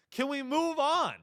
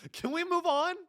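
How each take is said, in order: First: Insistent repeat. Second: Pleading mock question. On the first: Acted.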